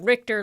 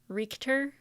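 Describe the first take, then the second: First: The first syllable sounds as in Richter scale. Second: The first syllable sounds like the word reek. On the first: The speaker calls it wrong. "like Richter scale" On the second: The speaker calls it right. "change it to like R E E K"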